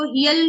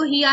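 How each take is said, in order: First: "हियल" closed by an l; wrong joined reading. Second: "हिया" left open on aa; correct unjoined reading. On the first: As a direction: attach the article's l in "हियल". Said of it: "इसको हियल नहीं पढ़ेंगे". ("हियल", ल के साथ मिलाकर) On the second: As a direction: keep "हिया" free of any final l. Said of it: "हिया ही रहने देंगे". ("हिया", अंत में खुला आ, ल नहीं) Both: Shown as a demonstration.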